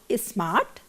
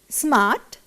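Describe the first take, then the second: First: An extra vowel is added before the s. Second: The word starts directly with the s sound. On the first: The speaker calls it wrong. "not is smart" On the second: The speaker calls it right. "Those words should be school, smart"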